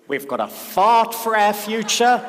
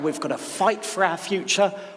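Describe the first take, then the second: First: It is spoken in an imitated Australian accent. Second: It is spoken in a plain non-Australian accent.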